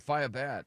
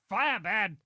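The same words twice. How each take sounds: First: It is said in a plain, ordinary voice. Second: It is said in a Frankenstein monster voice.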